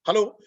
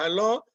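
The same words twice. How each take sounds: First: It is said in a strong, confident voice. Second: It is said weakly, with hesitation.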